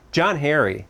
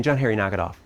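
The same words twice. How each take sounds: First: Put-on raised-pitch scolding of a child; mock stern. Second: Said in the usual way. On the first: Dad losing patience with his five-year-old, mock stern. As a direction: call the boy's name in mock exasperation. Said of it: "angry look on my face and tone of voice".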